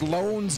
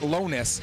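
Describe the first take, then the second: First: The name is said as one syllable. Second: The name is said as two syllables. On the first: The speaker calls it right. "It's pronounced Loans" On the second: The speaker calls it wrong. "not Lonus"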